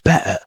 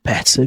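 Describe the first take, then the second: First: The middle T is replaced by a glottal stop. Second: The middle T is pronounced clearly.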